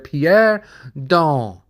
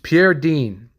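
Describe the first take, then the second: First: The name is said with a French pronunciation. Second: The name is said with an English pronunciation. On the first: The speaker calls it wrong. "That's how you say it in French" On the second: The speaker calls it right. "but it's Pierre Dean"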